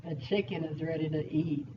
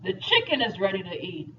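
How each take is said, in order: First: Low, softer sly delivery; lower, hushed hint of hungry menace; other inflection. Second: Said in the usual way. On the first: Shown as a demonstration. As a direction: say it low, like a cartoon predator eyeing dinner. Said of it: "different inflections kinda give you different meanings". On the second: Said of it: "let me try to get the accent right".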